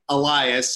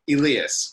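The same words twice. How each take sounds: First: The name is said with American pronunciation. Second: The name mixes Greek and American pronunciation. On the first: "American people would say Elias" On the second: "I kind of combine the two and I say Elias"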